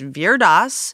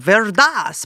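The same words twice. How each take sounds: First: The name is pronounced in a simple, plain way. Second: The name is pronounced in an exaggerated, overdone way. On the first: The speaker says it simply without overthinking. The speaker calls it right. "It's just Veer Das. Don't overthink it" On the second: The speaker is trying too hard to sound authentic. The speaker calls it wrong. "that's just me being extra and trying too hard"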